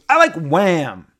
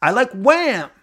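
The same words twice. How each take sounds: First: High, loud, eager blurt; excited fan. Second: Very high, loud squeal; excited fan, exact. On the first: Woman telling the moderator her favorite part, excited. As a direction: blurt it out thrilled. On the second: Woman blurting her answer to the moderator, squealed. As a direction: squeal it just as she did. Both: Retold or imitated. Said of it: "And that's exactly how she said it".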